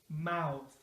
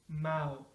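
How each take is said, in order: The two takes are said the same way.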